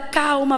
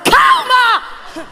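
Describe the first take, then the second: First: It is said softly and calmly. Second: It is said loudly and with force. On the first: The speaker is calmer than the nervous person. The speaker calls it wrong. "você diz assim para ela" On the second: The speaker is more agitated than the nervous person. The speaker calls it right. "mostrando para essa pessoa que você está mais agitado que ela"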